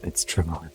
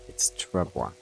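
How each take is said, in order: First: The word is said with English pronunciation. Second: The word is said with French pronunciation. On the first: The speaker calls it wrong. "If you want to annoy a Frenchman" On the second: The speaker calls it right. "If you want to sound like a Frenchman"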